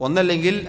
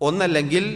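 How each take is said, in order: No difference in how they are said.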